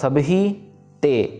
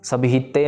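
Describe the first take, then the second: First: The words are kept separate. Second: The words are run together. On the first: The speaker calls it right. "ये अलग अलग word है तो इसको जोड़ना नहीं" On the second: The speaker calls it wrong. "सभी ते नहीं कहना है इसको"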